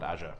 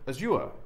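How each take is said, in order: First: It is said with an American pronunciation. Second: It is said with an Australian pronunciation. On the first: "them being American, ... they'll call it Azure" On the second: "If you're Australian like I am, you probably want to pronounce it Azure"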